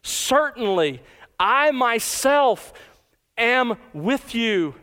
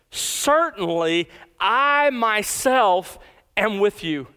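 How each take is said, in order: First: "I" raised high and stretched, very slow; slow, high-pitched stress on "I" before "am with you"; emphatic I. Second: "I" stressed and drawn out, very slow; slow, weighty stress on "I" in "Certainly I myself"; emphatic I. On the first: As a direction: lift "I myself" up and say it slowly. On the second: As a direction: lean hard on "I myself", half speed. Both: Shown as a demonstration. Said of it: "the pronoun I is emphatic".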